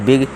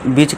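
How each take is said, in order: First: The final consonant is a hard g sound. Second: The final consonant is a j sound. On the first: The speaker calls it right. "इसका उच्चारण देखिए गा हो गया" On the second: The speaker calls it wrong. "यानी कि जा कर देंगे"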